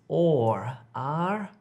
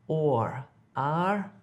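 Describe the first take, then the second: The two takes are said the same way.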